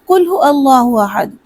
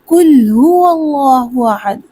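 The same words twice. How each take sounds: First: The w sound after hu is dropped. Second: The w sound after hu is pronounced. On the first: The speaker calls it wrong. "जल्दी में पढ़ते हैं" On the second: The speaker calls it right. "जबकि सही क्या है"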